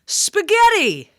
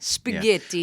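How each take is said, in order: First: The word is said loudly and forcefully. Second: The word is said at a normal volume.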